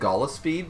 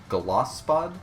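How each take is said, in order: First: The name ends with a 'peed' sound. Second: The name ends with a 'pod' sound. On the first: This is how other people say it. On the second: This follows the written name.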